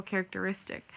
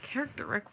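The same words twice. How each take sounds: First: "characteristic" whole, ending -istic; correct pronunciation. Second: Softer, questioning "Characteric", no -ist- in it; puzzled mispronunciation. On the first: Listener figuring out the intended word, correct pronunciation. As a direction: say "characteristic" in full, as if working it out. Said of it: "And you're like". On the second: Listener hearing it out of the blue, puzzled mispronunciation. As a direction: echo "Characteric" as a baffling word. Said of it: "if you just heard that out of the blue". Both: Acted.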